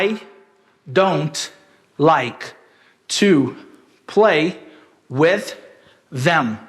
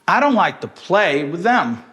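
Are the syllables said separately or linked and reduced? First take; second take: separately; linked. First: Every syllable is said separately with equal weight. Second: Weak syllables are reduced and linked in stress-timed rhythm. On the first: The speaker calls it wrong. "não dá pra gente falar dessa forma" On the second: The speaker calls it right. "you should use the stress-timed rhythm. And it sounds like this"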